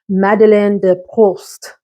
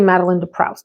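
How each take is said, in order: First: The name is said with a French accent. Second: The name is said with an American accent. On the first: "I Googled the pronunciation" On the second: "I'm going to Americanize it"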